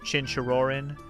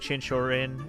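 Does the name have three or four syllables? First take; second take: four; three. First: The name is said with four syllables. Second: The name is said with three syllables. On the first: The speaker calls it right. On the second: The speaker calls it wrong.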